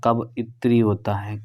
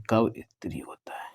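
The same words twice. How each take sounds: First: Said in the usual way. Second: कब इत्री होता है whispered with no voice; whispered repeat. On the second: Shown as a demonstration. Teacher quietly whispering the correct spelling to students. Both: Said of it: "कवित्री नहीं".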